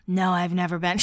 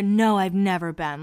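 First: Imitated low, raspy irritation; overdone smoker-like rasp; annoyed raspy voice. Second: Mildly annoyed, let-down retelling; lightly imitated sullen denial; angry and bummed. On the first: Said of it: "a little raspy voice when she's annoyed". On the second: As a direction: imitate someone irritated and a bit bummed. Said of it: "angry and, like, bummed".

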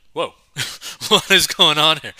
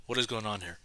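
First: Loud, high disbelief; retold shock. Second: Softer aside; retold bafflement. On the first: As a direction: blurt it out in mock alarm. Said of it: "which shocked me". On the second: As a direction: say it under the first reaction, subdued. Repeats the retold reaction, lower.

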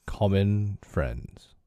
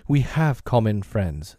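First: Slow, slightly hoarse echo of the words; a little hoarse. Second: Said in the usual way. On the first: Acted. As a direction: echo it back slowly with a touch of hoarseness. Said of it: "a little hoarsely". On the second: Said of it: "echoed Mister Hyde".

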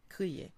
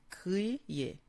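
First: Said in the usual way. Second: "Crier" split in two slow, separated syllables. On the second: Shown as a demonstration. Teacher sounding out "Crier" for learners, syllable by syllable. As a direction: draw out "Crier" with a break before the last syllable. Word shown broken into syllables.

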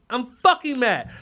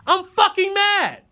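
First: Said in the usual way. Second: Slow, high, loud shout of mad; declaring real anger to viewers. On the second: Real, not acted. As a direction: bellow it out. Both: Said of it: "I, I'm mad".

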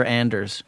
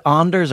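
First: Anders with the short a of "and"; AN-ders. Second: Anders with a broad "ah" at the start; AHN-ders. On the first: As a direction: flatten the first vowel of Anders to "AN". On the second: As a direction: open the first vowel of Anders to "AHN". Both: Shown as a demonstration. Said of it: "is it Anders or Anders".

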